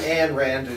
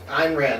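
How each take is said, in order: First: The first name sounds like Ann. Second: The first name keeps the y sound. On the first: The speaker calls it wrong. "where you just ignore the Y" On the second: The speaker calls it right. "That sounds better"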